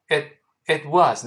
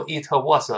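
First: "it was" with the t held, unreleased; silent t. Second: "it was" misread as "i-te wo-se"; over-released consonants. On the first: Teacher demonstrating lost plosion to students, silent t. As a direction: stop the t of "it" before "was". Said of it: "那个t也听不到". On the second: Teacher showing students what to avoid, over-released consonants. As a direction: add an extra vowel after t and s in "it was". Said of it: "不要读it was". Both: Shown as a demonstration.

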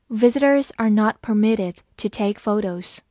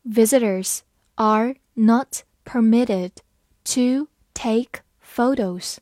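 First: Said in the usual way. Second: Slow, word-by-word teaching read. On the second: Shown as a demonstration. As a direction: read it slowly, pausing between words. (慢读，一词一顿) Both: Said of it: "好，慢读一遍".

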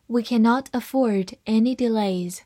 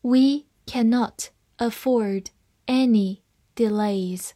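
First: Said in the usual way. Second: Slow, with pauses between words; deliberate teaching pace; slow reading. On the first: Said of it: "慢慢来读". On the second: Shown as a demonstration. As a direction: read carefully word by word for learners. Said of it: "好，慢慢来读".

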